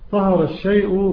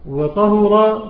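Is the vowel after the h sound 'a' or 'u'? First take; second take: a; u. First: The h is followed by an a vowel. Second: The h is followed by a u vowel. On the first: The speaker calls it right. "بفتح الهاء" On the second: The speaker calls it wrong. "بضمها"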